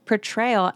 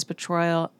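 First: "portrayal" redone as "per-TRAY-ul"; corrected portrayal. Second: "portrayal" fumbled as "puh-TROY-ul"; mispronounced portrayal. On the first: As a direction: say "portrayal" carefully, with a clear AY. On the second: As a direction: stumble on "portrayal", with an OY in the middle. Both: Real, not acted. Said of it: "am I good".

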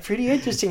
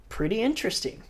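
First: Mock Kelly. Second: Higher, said through a laugh; downplay it with a grin; grinning understatement. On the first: Retelling Kelly's line to the cohost, hammed up. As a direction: ham up the understatement. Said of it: "It's just like". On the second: Retold or imitated. Kelly after a perfect barrel, laughing understatement. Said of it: "he's got this big old grin".

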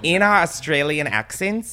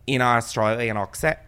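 First: A more convincing Australian accent; corrected Australian accent. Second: A clumsy try at an Australian accent; Australian accent that misses, "accent" off-target; botched Australian accent. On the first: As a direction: put on an Australian accent with assurance. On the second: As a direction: put on a poor Australian accent. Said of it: "how I talk in the Australian accent". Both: Shown as a demonstration.

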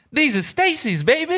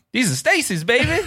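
First: High suave sales rep brag; smooth salesman voice. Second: High suave shoe rep call-out; smooth salesman yell. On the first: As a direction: brag it like a slick shoe rep. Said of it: "He goes". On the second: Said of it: "he yelled at me". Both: Retold or imitated.

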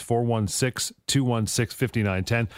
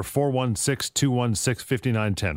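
First: Slow dictation. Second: Said in the usual way. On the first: Real, not acted. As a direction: slowly read out phone number. Repeats number to write down.

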